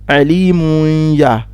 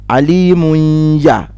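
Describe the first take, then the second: No difference in how they are said.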